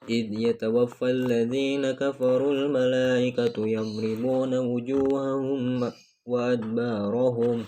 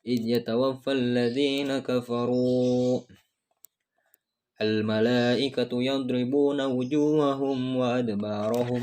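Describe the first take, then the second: First: It is read straight through without a pause. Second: There is a pause after kafaru. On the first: The angels strike the faces and backs of the unbelievers. "apabila kita membacanya tanpa jeda" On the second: The angels strike their own faces and backs. "dengan jeda"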